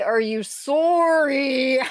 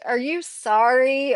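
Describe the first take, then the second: First: "sorry" as a long, high "soooor-ee", mock Canadian; Canadian accent. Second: Said in the usual way. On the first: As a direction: stretch a round Canadian O in "sorry". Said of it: "when Canadians say "sorry". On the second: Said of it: "one of my pet peeves when Canadians say".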